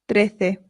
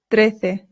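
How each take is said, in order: No difference in how they are said.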